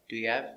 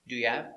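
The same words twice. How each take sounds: No difference in how they are said.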